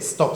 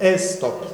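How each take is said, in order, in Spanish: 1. La palabra empieza directamente con el sonido s. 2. La palabra empieza con una vocal e añadida. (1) "no se dice stop" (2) "lo diría con la E"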